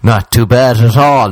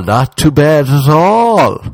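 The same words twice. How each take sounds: First: Said in the usual way. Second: Irish-style drawl, higher and slow; mock Irish understatement. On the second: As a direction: stretch it out like a stoic Irishman. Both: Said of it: "you'd be like".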